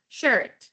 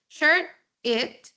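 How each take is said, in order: First: The two words are linked into one. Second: The two words are said separately.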